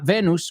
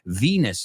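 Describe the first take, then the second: First: It is pronounced the Spanish way. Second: It is pronounced the English way. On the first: The speaker calls it wrong. "not Venus, porque se escribe igual" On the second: The speaker calls it right. "Now we know how to pronounce that word"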